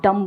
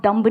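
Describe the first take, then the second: First: "डम" ending on m; silent b. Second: "डम्ब" with the final b pronounced; sounded b. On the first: Teacher corrects the student, "डम" with silent b. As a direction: drop the b, close "डम" on the m. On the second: Teacher shows what not to say, "डम्ब" with b. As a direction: close "डम्ब" on an audible b. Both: Shown as a demonstration. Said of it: "क्योंकि बी silent है".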